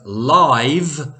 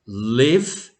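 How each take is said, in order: First: The vowel is long, as in 'five'. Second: The vowel is short, as in 'give'. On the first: It is the adjective meaning performed in person. "and live is an adjective" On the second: It is the verb meaning to reside. "Live is a verb"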